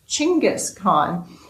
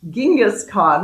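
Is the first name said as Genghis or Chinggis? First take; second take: Chinggis; Genghis. First: The first name begins with a ch sound. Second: The first name begins with a soft j sound. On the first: The speaker calls it right. "actually pronounced Chinggis Khan" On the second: The speaker calls it wrong. "what I used to call Genghis Khan"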